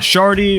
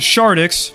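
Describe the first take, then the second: First: The final X sound is left silent. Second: The final X sound is clearly pronounced. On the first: The speaker calls it wrong. "not Shardy" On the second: The speaker calls it right. "my name is Shardix"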